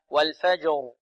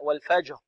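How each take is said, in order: First: The final r is clearly voiced. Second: The final r is voiceless, without voicing. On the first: The speaker calls it right. "هذا خطأ، بل هكذا" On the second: The speaker calls it wrong. "يتحرك طرف اللسان لكن بدون جهر"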